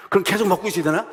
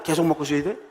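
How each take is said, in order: First: A lightly raised, teasing what-if; amused question. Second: Said in the usual way. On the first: Shown as a demonstration. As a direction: toss the question up to the congregation. (장난스럽게 묻는 질문)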